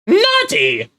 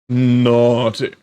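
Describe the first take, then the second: First: It is said in a Monokuma impression. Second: It is said without the Monokuma voice.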